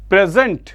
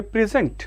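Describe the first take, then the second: First: "present" said pre-ZENT, as a verb; stress on second syllable. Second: "present" as the noun, PREZ-ent; stress on first syllable. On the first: Teacher repeating the verb for students, "present" with stress on ZENT. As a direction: hit the last syllable of "present". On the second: Teacher showing the noun to students, "present" stressed on its first syllable. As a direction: lean on the PREZ of "present", ending light. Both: Shown as a demonstration. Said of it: "ये वाला part stressed होगा".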